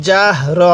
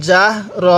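No difference in how they are said.

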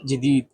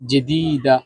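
First: The word ends on a consonant sound. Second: The word ends with a final vowel sound. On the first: This is the colloquial regional form of the word. "আঞ্চলিক ভাষা বলবেন তখন তটা উচ্চারণ করার কোনো প্রয়োজন নেই, বাস জেদিদ বললে হয়ে যাবে" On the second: This is the standard form of the word. "কার্ড জেদিদা"

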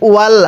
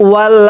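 Both takes have the same delivery.

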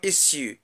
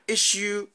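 First: The middle consonant is an s sound. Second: The middle consonant is a sh sound. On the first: "the sounds sh and s are allophones" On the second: "the sounds sh and s are allophones"

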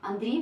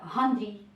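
First: The name starts directly with a vowel. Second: The name starts with an added h-like consonant.

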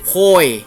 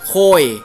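First: It is said with a Phu Thai accent. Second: The same.

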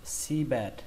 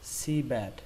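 No difference in how they are said.

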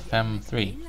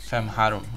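First: The number is said in English. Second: The number is said in Hungarian.

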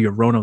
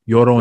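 First: It is said with an English-style pronunciation. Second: It is said with a Spanish-style pronunciation. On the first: This is how others would say it. The speaker calls it wrong. "I'm going to fucking hear Llorona" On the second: This is how the speaker's culture says it. The speaker calls it right. "Let me say it right"

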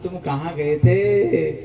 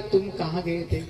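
First: It sounds knowing, as if already aware. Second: It sounds like a genuine, curious question.

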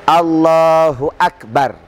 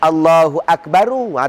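First: The final r has no vowel after it. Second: The final r is followed by an 'u' vowel. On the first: The speaker calls it right. "Pertama dengan wajah mati. ... Boleh" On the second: The speaker calls it wrong. "Kalau ada bunyi"

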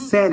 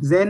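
First: The word begins with an s sound. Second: The word begins with a j sound. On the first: The speaker calls it right. "सेन, ये एस पढ़ते हैं इसको" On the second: The speaker calls it wrong. "जेन नहीं"

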